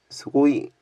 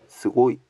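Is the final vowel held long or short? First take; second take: long; short. First: The final vowel is drawn out long. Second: The final vowel is short. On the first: The speaker calls it wrong. "스고이가 아니라" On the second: The speaker calls it right. "그냥 장음이 없네"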